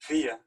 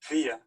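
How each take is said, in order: First: The first vowel sounds like 'ee'. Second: The first vowel sounds like 'ee'.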